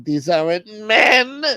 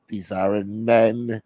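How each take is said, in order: First: High, slow, rising cry; mock wailing. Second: Slow, drawn-out words at usual pitch; subdued mock lament. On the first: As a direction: wail it theatrically to the end. Acted lament in a skit. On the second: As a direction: say it as a restrained, mournful complaint. Caller repeats the lament, subdued.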